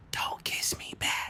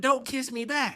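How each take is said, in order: First: Slow, breath-only whisper; secretive whisper. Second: High, voiced echo of her order; incredulous quoting. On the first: Retold or imitated. Little girl to playmate after the kiss, slow secret whisper. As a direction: whisper it slowly as a secret order. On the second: Confused kid quotes the girl's order, high incredulous voice. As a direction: throw the order back in high-pitched disbelief.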